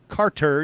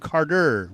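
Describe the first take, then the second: First: The middle consonant is a crisp T sound. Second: The middle consonant sounds like a D. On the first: "you're not really saying Carter" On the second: "You're saying Carter with a D"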